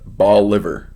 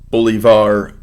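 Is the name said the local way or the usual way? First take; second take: local; usual. First: The name is said the local way. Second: The name is said the usual way.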